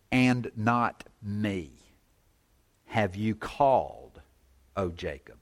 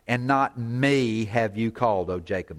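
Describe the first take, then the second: First: "And not me have you called" slow, weight on "me"; slow stress on me. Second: Said in the usual way. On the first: Shown as a demonstration. Preacher rereading the verse with slow weight on "me". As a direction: drag out "not me", lean on "me". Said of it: "the emphasis of "me" is at the front". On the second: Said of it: "you can read this two ways".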